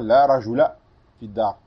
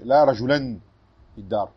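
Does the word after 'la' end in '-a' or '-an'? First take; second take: -a; -an. First: The noun ends with a plain -a. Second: The noun ends with the sound -an. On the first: The speaker calls it right. "Avec une fatha seulement" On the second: The speaker calls it wrong. "On ne dit pas"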